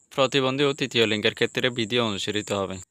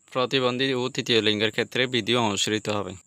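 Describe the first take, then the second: No difference in how they are said.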